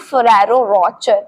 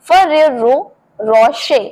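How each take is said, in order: First: "Ferrero Rocher" as fuh-RAH-ro ROTCH-er; hard ch and final er in "Rocher"; anglicised "Ferrero Rocher", ending like "rotcher"; common mispronunciation. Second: "Ferrero Rocher" as fe-RE-ro ro-SHAY; correct pronunciation. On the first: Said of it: "मैं भी इसको यही बोलती हूँ". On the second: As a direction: model "Ferrero Rocher" in two careful parts, ending ro-shay. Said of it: "इसे सही तरीके से बोलते हैं". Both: Shown as a demonstration.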